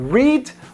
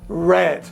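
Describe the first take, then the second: First: The word does not sound like the color red. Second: The word sounds like the color red. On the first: It is the verb in the infinitive. "O primeiro é to read" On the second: It is the verb in the simple past. "o segundo é red. Mais ou menos como a cor mesmo"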